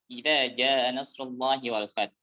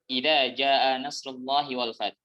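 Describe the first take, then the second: The two takes are said the same way.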